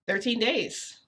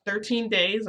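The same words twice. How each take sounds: First: Said in the usual way. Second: Higher, louder disbelieving echo; shocked question. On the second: Retold or imitated. Boyfriend repeats her answer, shocked disbelieving rise.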